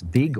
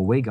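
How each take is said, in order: First: "Vig" said with an opening V sound; surname with V. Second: "Wig" said with an opening W sound; surname with W. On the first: Unsure co-host tries out the actress's surname, "Vig" with a V. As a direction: say "Vig" starting on a V. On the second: Unsure co-host offers the other surname, "Wig" with a W. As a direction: say "Wig" starting on a W. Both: Shown as a demonstration. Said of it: "am I saying her name right?".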